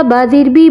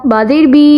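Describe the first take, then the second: First: Final "बी" kept short; quick reading. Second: Final "बी" held long; wrongly stretched. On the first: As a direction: say it promptly, without holding "बी". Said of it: "जल्दी से". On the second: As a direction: demonstrate the error, dragging out "बी" at the end. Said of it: "ये भी ना हो". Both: Shown as a demonstration.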